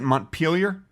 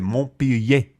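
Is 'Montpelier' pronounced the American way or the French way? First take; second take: American; French. First: It is pronounced the American way. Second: It is pronounced the French way. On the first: "Is that how they pronounce it?" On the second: "I would think it'd be French and be, they'd pronounce it"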